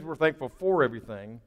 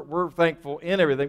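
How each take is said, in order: First: "for" picked out before "everything"; stress on FOR. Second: "in" picked out before "everything"; stress on IN. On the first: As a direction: lean on the word "for". Contrasts "for" with "in. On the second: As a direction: lean on the word "in". Contrasts "in" with "for. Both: Shown as a demonstration.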